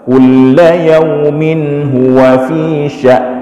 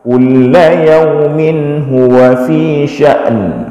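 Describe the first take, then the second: First: The last word ends without an n sound. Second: The last word ends with a clear n sound. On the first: The speaker calls it wrong. "Kadang kita baca satu saja, hamzah saja, nunnya hilang" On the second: The speaker calls it right. "Harus harus nampak nunnya"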